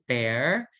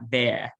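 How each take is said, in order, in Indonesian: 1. R di akhir jelas dibunyikan. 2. R di akhir dihilangkan. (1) "karena kita pakai aksen American... suara R-nya juga kita lipat" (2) "British accent, they don't hit the R"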